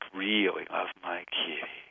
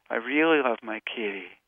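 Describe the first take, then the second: First: It is spoken on a comfortable home pitch. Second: It is spoken on a higher pitch.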